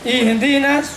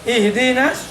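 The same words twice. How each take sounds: No difference in how they are said.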